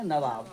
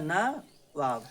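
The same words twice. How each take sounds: First: Said in the usual way. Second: Nawab drawn out very slowly, syllable by syllable; slow spelling demo. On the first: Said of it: "क्या बोलेंगे?". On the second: Shown as a demonstration. Teacher to class, very slowly spelling the word. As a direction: stretch Nawab for dictation. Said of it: "अरे क्या लिखा है?".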